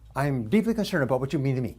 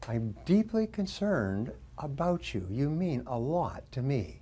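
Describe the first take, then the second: First: It is said quickly. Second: It is said slowly.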